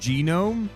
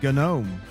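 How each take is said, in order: First: The word is said like 'genome'. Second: The word is said like 'gnome'. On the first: This is assumed to be the proper pronunciation. "I know it's or I assume it's genome" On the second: This is a personal habit from childhood. "I'm pronouncing it gnome"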